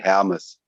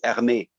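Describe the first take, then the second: First: The name is said with a German pronunciation. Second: The name is said with a French pronunciation. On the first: "but the German pronunciation, which is also uh, same with Swiss" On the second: "it could be also uh, the French pronunciation"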